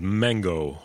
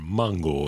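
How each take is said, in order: First: The word has an English pronunciation. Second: The word has a Spanish pronunciation. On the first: "A track called Mango" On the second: "as she pronounces it there"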